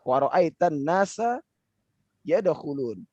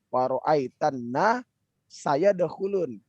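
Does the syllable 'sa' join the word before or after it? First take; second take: before; after. First: 'Sa' stays attached to the preceding word 'nas'. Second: A break falls before 'sa', joining it forward. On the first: The syllable is part of the word for 'people'. The speaker calls it right. "harusnya gitu" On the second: The syllable becomes a word meaning 'will', changing the meaning. The speaker calls it wrong. "jika kita sedikit memperlambat. Seakan-akan kita membuat"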